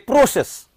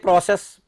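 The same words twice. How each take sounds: First: The stress is on the first syllable. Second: The stress is on the second syllable. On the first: It is the noun form. The speaker calls it right. "Say process" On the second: It is the verb form. The speaker calls it wrong. "Don't say process. Process is verb"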